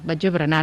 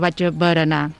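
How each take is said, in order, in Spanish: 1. Berenar se dice en una forma casual y coloquial. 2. Berenar se dice en la forma estándar y escrita. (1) "quan ho diem en un context informal, doncs podem dir berenar" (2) "hi hem de posar una E"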